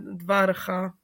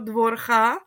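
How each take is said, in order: First: The first vowel sounds like a. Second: The first vowel sounds like o. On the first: A secondary stress mark keeps the syllable open. The speaker calls it right. "tady tohle to tam je dvárcha, protože je metek" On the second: The syllable would be closed without a secondary stress mark. The speaker calls it wrong. "když by tam nebyl ten metek, tak byste měl pravdu"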